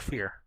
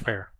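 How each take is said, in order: First: The surname rhymes with 'ear'. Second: The surname rhymes with 'air'. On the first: The speaker calls it wrong. "not Fear" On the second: The speaker calls it right. "his name is pronounced Rich Fair"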